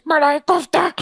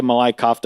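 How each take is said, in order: First: High, hammed-up waiter echo; waiter impression. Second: Said in the usual way. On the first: Waiter repeating the diner's order, hammed-up high voice. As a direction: sing out the dish in a high put-on voice. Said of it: "And he goes". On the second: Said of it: "And I say".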